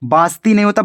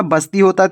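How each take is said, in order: First: बास्ती with a long आ in the first syllable; wrong vowel. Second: बस्ती with a short अ in the first syllable; बस्ती said crisply with a short first vowel; correct pronunciation. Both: Shown as a demonstration.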